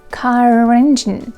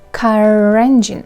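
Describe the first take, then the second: First: The two words are joined with a linking R. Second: The same.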